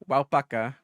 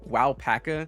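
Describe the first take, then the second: First: It is said with a Spanish accent. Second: It is said with an English accent. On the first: The speaker sounds like someone who just doesn't know how to pronounce it. The speaker calls it right. "So I always say them with a Spanish accent" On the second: The speaker sounds like an unworldly, insensitive American. The speaker calls it wrong. "I try not to say them in Eng- with an English accent. You know, like"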